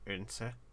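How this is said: The D is dropped, with a catch near the start. The speaker calls it right. "a lot closer of a pronunciation. the D is gone. It's a little bit of a hiccup"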